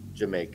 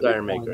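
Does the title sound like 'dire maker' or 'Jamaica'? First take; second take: Jamaica; dire maker. First: The title sounds like 'Jamaica'. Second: The title sounds like 'dire maker'. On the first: The speaker calls it right. "It's Jamaica" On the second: The speaker calls it wrong. "I said Dire Maker"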